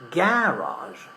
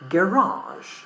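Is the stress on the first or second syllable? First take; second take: first; second. First: The stress is on the first syllable. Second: The stress is on the second syllable. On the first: This is the British pronunciation. "In British English we pronounce um, the word with the stress in the first syllable" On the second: This is the American pronunciation. "in American English, we pronounce the stress in the second syllable"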